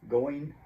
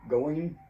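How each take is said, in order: The two takes are said the same way.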